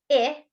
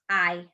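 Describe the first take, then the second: First: "I" said as the long vowel, like eye; long I sound. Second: "I." said as the short vowel i, as in it; short i sound. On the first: Teacher showing children the letter sound, long "I" like eye. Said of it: "I says". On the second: Teacher showing children the second letter sound, short "I." as in it. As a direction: clip "I." to the short i of it. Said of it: "and I says". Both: Shown as a demonstration.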